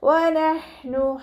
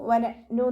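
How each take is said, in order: First: The consonant is a light, breathy h. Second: The consonant is a glottal stop catch. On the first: The speaker calls it right. "ഹ എന്നുള്ള സൗണ്ട് തന്നെ കൊടുക്കുക" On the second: The speaker calls it wrong. "സൗണ്ടിനെ ഹംസയുടെ സൗണ്ടായി പോവാതെ നോക്കുക ... എന്നായി പോവരുത്"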